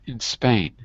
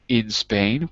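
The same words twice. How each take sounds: First: The word 'in' is unstressed and skipped over. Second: The word 'in' is stressed and said fully. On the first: "if it's a function word and it's not stressed, we have to sort of skip over it" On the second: "Can we say in Spain? We can"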